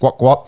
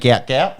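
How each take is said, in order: First: The vowel sounds like the one in 'what'. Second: The vowel sounds like the one in 'out'. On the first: "his dad come out and said it's Gwat Gwat" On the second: "Spelt English phonetically"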